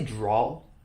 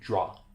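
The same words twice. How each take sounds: First: The word ends with an added L sound. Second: The word ends without any L sound. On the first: The speaker calls it wrong. "I say it with an L for some reason" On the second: The speaker calls it right. "it's supposed to be draw"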